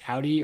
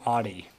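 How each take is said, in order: First: Audi with OW as in "cow"; Audi as OW-dee. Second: Audi with an open AH at the start; Audi as AH-dee. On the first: Asking co-hosts how to pronounce the carmaker, Audi said OW-dee. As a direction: say Audi as OW-dee, offering one option. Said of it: "how do you pronounce Audi?". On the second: Asking co-hosts which pronunciation is right, Audi said AH-dee. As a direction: say Audi as AH-dee, the alternative option. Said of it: "Is it Audi or Audi?". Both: Shown as a demonstration.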